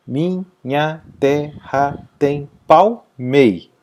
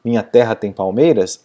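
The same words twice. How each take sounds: First: Slow syllable-by-syllable "Minha terra tem palmei", stopping on "mei"; poetic syllable count. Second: Said in the usual way. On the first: Shown as a demonstration. Teacher showing poetic scansion, "Minha terra tem palmei" slowly syllable by syllable. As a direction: separate every beat and cut off after stressed "mei". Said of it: "Parou na última tônica". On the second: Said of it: "aquele primeiro verso que tinha oito".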